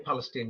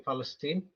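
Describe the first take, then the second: First: The word begins with a P sound. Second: The word begins with an F sound. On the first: The speaker calls it wrong. "they don't say Palestine" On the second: The speaker calls it right. "they say Palestine. Yes, like phallus"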